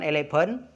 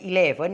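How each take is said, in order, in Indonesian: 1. Bunyinya mirip dengan kata elephant. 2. Bunyinya jelas seperti angka eleven. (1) "bukan eleven, nanti artinya gajah" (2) "eleven yang benar"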